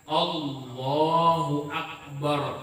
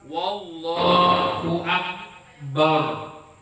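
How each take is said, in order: First: The first word starts without a w sound. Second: A w sound is added before the first word. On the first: The speaker calls it right. "Bujur-bujur hamzah nanti baca" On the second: The speaker calls it wrong. "Jangan menambahi huruf waw di hadapan huruf Allah"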